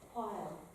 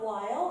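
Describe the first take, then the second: First: The W starts with a soft puff of air. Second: The W at the start is fully voiced. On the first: The speaker calls it right. "It's just a tiny bit of a puff of air" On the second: The speaker calls it wrong. "It's not while"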